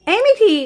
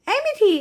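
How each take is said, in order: First: Loud call to wake her; mother waking her daughter, calling loud. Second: Said in the usual way. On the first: Acted. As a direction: shout her name to wake her.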